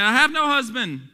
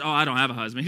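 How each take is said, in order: First: High, loud read-aloud reply; emphatic preacher quoting the verse; formal scripture answer. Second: Offhand everyday reply; low-key conversational paraphrase; modern casual vernacular. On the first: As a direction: declaim it as Bible dialogue. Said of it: "And the woman answered him". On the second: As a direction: say it casually, without scripture formality. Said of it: "in our modern day vernacular". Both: Acted.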